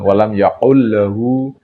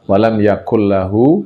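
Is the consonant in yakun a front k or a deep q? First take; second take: deep q; front k. First: The consonant is a deep back q sound. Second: The consonant is a plain front k sound. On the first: The speaker calls it wrong. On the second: The speaker calls it right. "Kaf ya, kaf"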